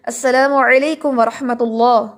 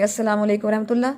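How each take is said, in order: First: अस्सलामु अलैकुम व रहमतुल्लाह with a heavy lam in रहमतुल्लाह; proper salam. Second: Everyday careless greeting; sloppy salam. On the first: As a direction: say the full greeting carefully. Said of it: "सलाम करते हैं". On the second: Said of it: "क्या कहेंगे". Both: Shown as a demonstration.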